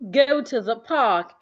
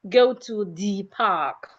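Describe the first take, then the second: First: 'The' has a reduced schwa vowel. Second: 'The' has its full, strong vowel. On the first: The speaker calls it right. "the reduced form with the schwa sound" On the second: The speaker calls it wrong. "instead of"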